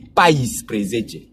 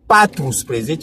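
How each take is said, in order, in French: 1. Le nombre commence par la forme raccourcie pai. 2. Le nombre commence par le mot complet patru. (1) "pour l'harmonie phonétique" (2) "c'est très littéraire"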